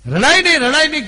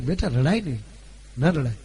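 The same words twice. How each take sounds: First: Put-on higher and louder, pleading the child to stop crying; mother's insistent call. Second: Soothing mother. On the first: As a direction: call out રડાય નહીં loud and high, pressing the child. (દીકરીને ઊંચા અને મોટા અવાજે સમજાવતી માતા) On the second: Retold or imitated. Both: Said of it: "કીધું બે વાર".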